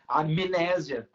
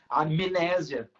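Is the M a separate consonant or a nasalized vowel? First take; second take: consonant; consonant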